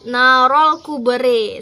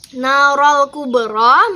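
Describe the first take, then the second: First: The final vowel is tilted toward 'e'. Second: The final vowel sounds like an open 'a'.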